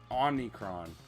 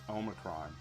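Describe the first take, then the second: First: An extra n sound comes before 'cron'. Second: No n sound comes before 'cron'. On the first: The speaker calls it wrong. "he kept calling it Omnicron" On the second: The speaker calls it right. "It's Omicron"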